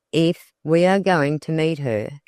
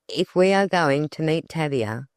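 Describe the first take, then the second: First: "If" stressed and set apart; emphasis on "If". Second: Said in the usual way. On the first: A narrator's reading. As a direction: lean on "If" as an interrupting echo. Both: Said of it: "emphasis on the first word".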